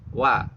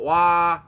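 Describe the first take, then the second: First: The vowel is opened to a normal size. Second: The vowel is opened very wide and exaggerated. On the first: The speaker calls it right. "Wa biasa" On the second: The speaker calls it wrong. "nggak usah sampai gede-gede banget sampai wah, nggak gitu"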